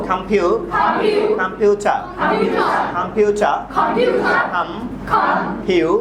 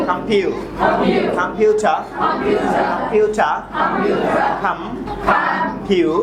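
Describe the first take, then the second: Both takes have the same delivery.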